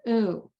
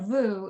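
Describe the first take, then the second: First: The vowel is said with no v before it. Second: The vowel is said with a v before it. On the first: The speaker calls it right. "It's an ooh" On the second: The speaker calls it wrong. "It's not a voo"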